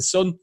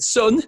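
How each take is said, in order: First: Said in the usual way. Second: Higher-pitched try at an American "Son"; put-on American accent, pitched up; attempted American accent. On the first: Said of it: "that's normal accent. It's not American". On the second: Retelling a father addressing his son, put-on American accent. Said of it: "It's not American, right?".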